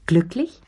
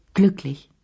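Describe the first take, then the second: First: Glücklich? asked with a rising question tune; questioning rise. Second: Glücklich. said with a settled falling tune; firm falling answer. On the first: Madame Pelou asks Lea if she is happy, rising. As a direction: probe her, lifting the word at the end. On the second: Lea confirms to Madame Pelou, calmly falling. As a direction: close the question down, certain. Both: A narrator's reading.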